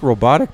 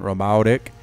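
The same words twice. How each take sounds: First: It is said in a plain, neutral accent. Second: It is said in a Southern drawl accent. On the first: "It's like robotic" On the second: "but with a like a southern accent"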